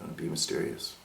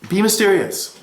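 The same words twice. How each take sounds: First: It is said in a mysterious, withholding way. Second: It is said in a plain, open way. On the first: The speaker calls it right. "Let me try that again" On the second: The speaker calls it wrong. "I said that in a very non-mysterious way"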